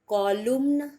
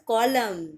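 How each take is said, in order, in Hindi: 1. यह शब्द N की आवाज़ से खत्म होता है। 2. यह शब्द M की आवाज़ पर खत्म होता है। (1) "नो" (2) "इट्स अ कॉलम"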